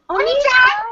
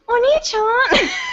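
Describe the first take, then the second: First: The cute voice is given full-out with energy. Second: The cute voice is held back and weak.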